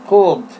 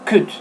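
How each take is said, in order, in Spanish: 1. Se pronuncia un sonido L en la palabra. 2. No se pronuncia ningún sonido L en la palabra. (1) "no intenten agregar una L porque yo no puedo decir could" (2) "Me toca decir could. Nada más. Omitiendo la L"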